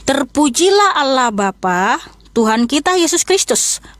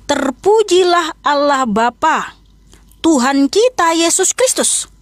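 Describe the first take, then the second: First: It is read at a normal, quicker pace. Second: It is read slowly and deliberately.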